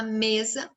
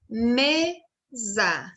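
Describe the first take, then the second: First: Said in the usual way. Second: Mesa split into two long syllables, ME strongest; stress on ME. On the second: Shown as a demonstration. Teacher showing children the stressed syllable, mesa drawn out with weight on ME. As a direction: sound out ME-sa slowly and firmly. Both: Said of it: "o me é a sílaba tônica".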